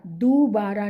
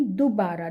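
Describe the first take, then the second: First: दोबारा as doobaara, long ऊ first; wrong long vowel. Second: दोबारा as dubaara, short उ first; correct short vowel. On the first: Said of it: "दोबारा नहीं". (दोबारा को लंबे 'दू' से बोलें) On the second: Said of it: "छोटे ऊ की मात्रा". (दोबारा को छोटे 'दु' से बोलें) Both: Shown as a demonstration.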